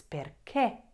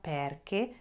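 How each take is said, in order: First: "perché" as per-KÉ, final é punched; stress on last syllable. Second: "perché" misstressed as PER-ke, weak last syllable; wrongly stressed first syllable. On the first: Teacher corrects the wrong version, "perché" stressed on the final é. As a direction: land the accent firmly on the é of "perché". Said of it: "Say that accent". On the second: Teacher shows learners what it's not, "perché" stressed on the first syllable. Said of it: "it's not perché". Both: Shown as a demonstration.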